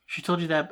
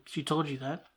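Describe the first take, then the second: First: "She told you that." falling, stressed on "told"; flat statement. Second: She told you that, rising up at the end of "that"; "She told you that?" asked with a rise, as if caught off guard; surprised question. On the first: Lex quoted answering Lois, flat and knowing. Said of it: "it sounded like a". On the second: Lex quoted asking Lois, lightly surprised. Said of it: "Like, it was like". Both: Retold or imitated.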